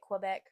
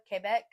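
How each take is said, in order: First: It is pronounced with an English pronunciation. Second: It is pronounced with a French pronunciation. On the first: The speaker calls it wrong. "most people say it Quebec" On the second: The speaker calls it right. "I have to pronounce it correctly"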